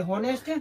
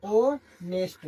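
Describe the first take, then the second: First: होनेस्ट said with a sounded h at the start, hoh-nest; teacher showing the wrong होनेस्ट with an audible h; wrong pronunciation. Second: ऑनेस्ट with a silent h, drawn out very slowly as aw-nest; teacher modelling ऑनेस्ट very slowly and clearly; correct pronunciation. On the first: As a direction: say होनेस्ट with the h pronounced, as the mistake. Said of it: "नहीं होता है". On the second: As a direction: stretch ऑनेस्ट out slowly, open vowel, no h. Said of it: "इसको पढ़ते हैं ऑनेस्ट". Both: Shown as a demonstration.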